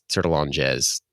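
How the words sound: The name is pronounced in an American way. "if you were to pronounce it like an American"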